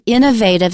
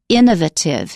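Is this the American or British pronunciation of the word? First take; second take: American; British. First: It is said with the American pronunciation. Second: It is said with the British pronunciation. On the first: "we're used to the American pronunciation" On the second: "it's more popular in Britain to say innovative"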